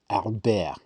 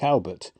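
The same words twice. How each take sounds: First: The name is said with French pronunciation. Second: The name is said with English pronunciation. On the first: "we're supposed to pronounce it the French way" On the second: "a proper footballer's name like Albert"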